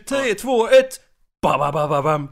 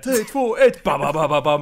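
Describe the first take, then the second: First: A long pause comes before the first beat. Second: The beats follow the count in steady rhythm. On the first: The speaker calls it wrong. "Det är ju inte" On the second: The speaker calls it right. "det är som när man tummar in så här"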